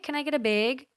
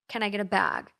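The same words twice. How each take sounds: First: Bag is said with a Minnesota accent. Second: Bag is said the California way.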